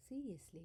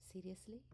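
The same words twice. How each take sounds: First: Higher and louder, breathy falling insistence; insistent repeat. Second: Breathy rising disbelief; incredulous question. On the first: Meera pressing her father, emphatic falling repeat. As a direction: press the point home. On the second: Meera laughing at her father, incredulous rising question. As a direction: ask it as if you can't believe it. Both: Acted.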